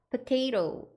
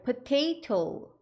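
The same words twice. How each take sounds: First: The word is pronounced with soft, relaxed consonants. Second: The word is pronounced with crisp, hard consonants. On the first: "약간 부드럽게 발음해 주시면" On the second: "potato 하셔도 되지만"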